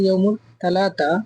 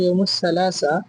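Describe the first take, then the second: First: The word is said with 't' sounds. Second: The word is said with 's' sounds. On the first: This is the everyday regional form. "আঞ্চলিক আরবিতে বলা হয় ইয়মুল তালাতা" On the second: This is the standard written form. "শুদ্ধ ভাষায় ইয়মুল সালাসা"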